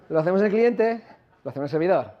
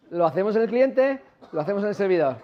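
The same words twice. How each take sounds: The two takes are said the same way.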